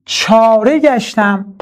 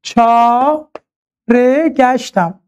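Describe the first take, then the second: First: چاره گشتم read slowly as part of the verse; چاره گشتم said slowly in poem recitation. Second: چاره گشتم stretched out, each syllable held long; very slow scansion. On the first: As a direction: recite چاره گشتم unhurried within the line. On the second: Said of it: "نگاه کنید". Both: Shown as a demonstration.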